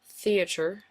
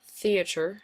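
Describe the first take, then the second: First: The word is said in an unusual, affected way. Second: The word is said in an unusual, affected way.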